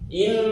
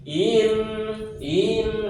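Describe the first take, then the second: First: The vowel goes straight into the n, short. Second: The vowel is stretched out before the n. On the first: The speaker calls it right. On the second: The speaker calls it wrong. "hamzahnya itu di ayun dulu"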